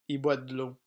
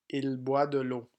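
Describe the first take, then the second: First: The pronoun is said as i, dropping the l. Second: The pronoun il is said with its l. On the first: This is the everyday spoken form. "Français parlé" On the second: This is the written, formal form. "Français écrit"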